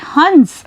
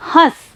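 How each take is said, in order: First: हंस with a clear nasal n before the s, like huns; anusvara nasal. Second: हंस with a nasalised a and no full n, like hãs; chandrabindu nasal vowel. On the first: Teacher shows pupils the anusvara sound, nasal n clearly sounded. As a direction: say हंस as hans with the n sounded through the nose. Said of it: "यहाँ पर जो अनुस्वार है इसका उच्चारण करते समय ध्वनि नाक से निकल रही है".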